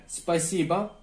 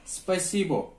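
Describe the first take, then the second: First: Spasiba with the last vowel as a; real pronunciation. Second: Spasibo read as spelled, clear final o; letter-by-letter reading. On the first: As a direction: say Spasiba, unstressed o turned to a. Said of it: "parantez içerisinde spasiba yazılmış". (Spasiba, son hece a ile söyleniyor) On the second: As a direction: say spasibo exactly as written, ending in o. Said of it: "harf olarak okuduğumuz zaman spasibo". (spasibo yazıldığı gibi, o ile okunuyor) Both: Shown as a demonstration.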